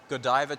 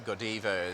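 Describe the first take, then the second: First: It is said with ordinary English pronunciation. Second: It is said with Japanese-style pronunciation.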